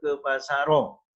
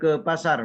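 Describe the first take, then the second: First: The word ends with an added o vowel. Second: The word ends on a bare r sound. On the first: The speaker calls it wrong. "Tidak bisa juga" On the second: The speaker calls it right. "Mengapa dibaca sukun roknya?"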